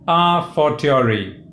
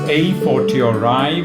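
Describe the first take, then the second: First: It is said in a classical Latin pronunciation. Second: It is said in a typically British pronunciation. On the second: "which is typically British"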